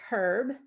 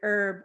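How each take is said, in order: First: The word starts with an H sound. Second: The word starts without an H sound. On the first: "In England, they pronounce it herb" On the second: "pronounces the word herb with a silent H"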